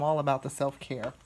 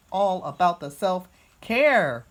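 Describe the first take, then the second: First: Said in the usual way. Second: Slow, punched "self-care", loud on "care"; emphatic repeat. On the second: Real, not acted. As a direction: draw out "self-care" with gusto. Restates it for emphasis.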